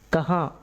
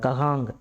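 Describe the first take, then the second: First: The word ends with a faint, near-silent nasal. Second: The word ends with a full 'ng' sound. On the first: The speaker calls it right. "அந்த இங்குங்கிறது சைலண்ட்டாக இருக்கணும்" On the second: The speaker calls it wrong. "கஹாங் யகாங் அப்படின்னு சொல்லணும்னு அவசியம் இல்லை"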